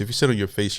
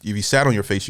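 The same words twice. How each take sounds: First: Said in the usual way. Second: "sat" stressed as the correction of "sit", quick pace. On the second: Shown as a demonstration. Reacting to the comedian, quick fix stressing "sat". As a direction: lean on "sat" to fix the verb, rattled off fast.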